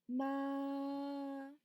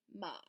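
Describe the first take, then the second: First: The pitch stays high and level. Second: The pitch is low and deep. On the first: "Vamos a empezar con el primer tono" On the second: "es grave, se siente en el pecho"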